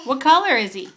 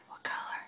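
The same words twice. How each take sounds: First: Loud. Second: Hushed secret question; whispering. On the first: Exaggerated question to toddler. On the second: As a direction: drop to a whisper for fun. Playful whisper to toddler. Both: Real, not acted.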